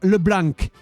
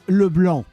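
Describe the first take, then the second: First: The final C sound is pronounced. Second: The final C sound is silent. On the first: The speaker calls it wrong. "is not LeBlanc" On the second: The speaker calls it right. "Because the C is silent"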